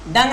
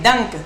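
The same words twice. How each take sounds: First: "डंग" said with a soft g ending, as the error; wrong word marked. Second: "डंक" ending on a clear k; corrected word. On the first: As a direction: say "डंग" as the mistake to correct. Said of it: "डंग नहीं". ("डंग" गलत उच्चारण, ग से अंत) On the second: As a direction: stress the k in "डंक" as the fix. ("डंक" सही उच्चारण, क पर ज़ोर) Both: Shown as a demonstration.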